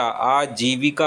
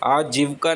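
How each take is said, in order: First: आजीविका said as "aa-jee-vi-ka", all vowels kept; correct pronunciation. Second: आजीविका said as "aajivka", middle i dropped; wrong pronunciation. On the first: Teacher correcting आजीविका, pronounced slowly as "aa-jee-vi-ka". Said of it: "आजीविका होता है". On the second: Teacher showing the mistaken आजीविका, mispronounced as "aajivka". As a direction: squash आजीविका to three syllables, aa-jiv-ka. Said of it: "आजीविका नहीं होता". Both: Shown as a demonstration.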